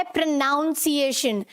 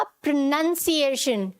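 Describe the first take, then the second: First: प्रोनाउंसिएशन with "noun" in it; wrong pronunciation. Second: प्रोनाउंसिएशन as "pruh-NUN-see-ay-shun"; short "nun" inside प्रोनाउंसिएशन; correct pronunciation. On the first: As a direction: sound "pro-NOUN-ciation" in प्रोनाउंसिएशन. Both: Shown as a demonstration. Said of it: "नाउन नहीं आएगा".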